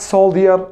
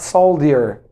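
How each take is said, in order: First: Soldier said as sol-dee-er, with a clear d and no j sound; mock the mistake: soldier as sol-dee-er; wrong pronunciation. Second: Soldier said as sol-dee-er, with a hard d; wrong pronunciation. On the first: Teacher showing students the wrong way, sol-dee-er. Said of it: "No, no, no". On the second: Teacher warning students off the wrong form. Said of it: "not soldier". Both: Shown as a demonstration.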